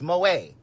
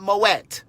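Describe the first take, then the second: First: Moet said mo-ET, the French way with the T; correct French Moet. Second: Moet said as the mispronunciation he mocks; wrong Moet. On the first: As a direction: pronounce Moet properly as French. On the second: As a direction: give Moet the mistaken reading. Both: Shown as a demonstration. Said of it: "It's Moet. It's not Moet".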